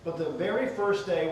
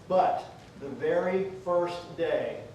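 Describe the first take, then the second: First: It is read at a normal speaking pace. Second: It is read slowly, at about half speed.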